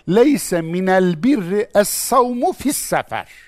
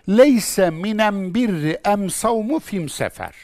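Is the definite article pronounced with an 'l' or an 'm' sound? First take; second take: l; m. First: The article is pronounced with an 'l' sound. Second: The article is pronounced with an 'm' sound. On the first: This is the northern, Quranic form. "Kur'an Arapçasıyla şöyle söylenir" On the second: This is the southern dialect form. "Allah Resulü de ona kendi lehçesince cevap vermiş"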